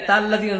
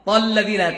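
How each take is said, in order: First: তাল্লাযীনা opening on a thin "tal"; wrong, thin-vowelled তাল্লাযীনা; mistaken light "ta". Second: তাল্লাযীনা opening on a thick, rounded Arabic ط; full-mouthed "tol" in তাল্লাযীনা; correct heavy "to". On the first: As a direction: show the fault: light t in তাল্লাযীনা. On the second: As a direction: model তাল্লাযীনা with a heavy first consonant. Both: Shown as a demonstration. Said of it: "তাল্লাযীনা না হয়".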